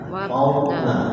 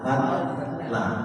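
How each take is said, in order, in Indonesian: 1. Konsonan di tengahnya terdengar tebal dan berat. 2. Konsonan di tengahnya terdengar tipis dan ringan. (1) "Jadi suaranya sudah lebih tebal, lebih berat" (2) "Nah itu kalau pakai dal, dia terasanya tipis"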